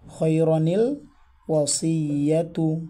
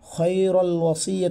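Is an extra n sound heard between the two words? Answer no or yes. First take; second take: yes; no. First: A clear 'ni' sound joins the two words. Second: The words join with no n sound between them. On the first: The speaker calls it right. "সুতরাং আমরা এটাকে পড়ব" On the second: The speaker calls it wrong. "আমরা বলবো না"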